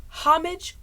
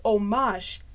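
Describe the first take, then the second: First: First "homage" as HOM-ij. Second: Second "homage" as oh-MAHZH; French-style homage. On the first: Admitting the mistake, "homage" as HOM-ij. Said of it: "I thought it was". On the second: Admitting the mistake, "homage" as oh-MAHZH. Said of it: "homage or homage". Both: Shown as a demonstration.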